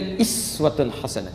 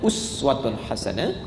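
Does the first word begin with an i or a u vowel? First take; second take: i; u. First: The first word begins with an i vowel. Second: The first word begins with a u vowel. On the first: This is the reading of another recitation tradition. "ini bisa dibaca juga dengan iswah" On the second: This is the reading of one recitation tradition. "Kata uswah dalam riwayat Hafiz dari Asim"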